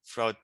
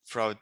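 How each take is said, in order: Both takes have the same delivery.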